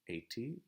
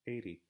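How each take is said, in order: First: The middle T is a crisp, full T sound. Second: The middle T is a quick, light flap. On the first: The speaker calls it wrong. "I'm really not saying eighty, eighty. By American standards, that sounds a little bit strange" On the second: The speaker calls it right. "but I say eighty, eighty. The tip of the tongue is just going here, just lightly touching the top"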